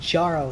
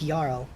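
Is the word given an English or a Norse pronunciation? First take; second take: English; Norse. First: The word gets a plain English reading. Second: The word gets a Norse-style reading. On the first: The speaker calls it wrong. "J A R L isn't Jarl" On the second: The speaker calls it right. "it's Jarl"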